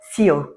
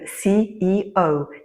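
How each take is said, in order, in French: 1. Les lettres s'enchaînent en un seul mot. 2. Chaque lettre se dit séparément, avec son propre accent. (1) "souvent j'entends le mot" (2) "il faut mettre un accent sur chaque lettre"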